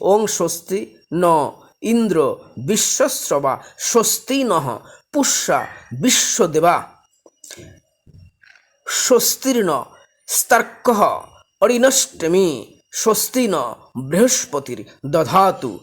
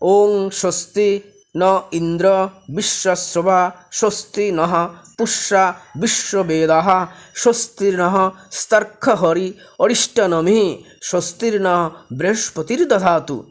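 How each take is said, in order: First: The mantra is recited slowly. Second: The mantra is recited at a normal pace.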